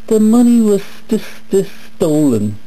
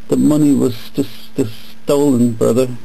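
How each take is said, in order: First: It is said in a small mocking voice. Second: It is said in a normal voice.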